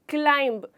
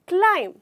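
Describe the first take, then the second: First: The word ends with an audible b sound. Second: The word ends on m with no b. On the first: The speaker calls it wrong. "मैंने सुना है लोगों को बोलते हुए क्लाइंब, क्लाइंब, जो गलत है" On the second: The speaker calls it right. "यहाँ पे हमारा लेटर बी साइलेंट होता है"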